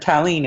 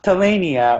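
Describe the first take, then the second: First: The name is said as Ta-leen. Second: The name is said as Ta-la-ni-a. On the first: "or Talene" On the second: "It's not Talania"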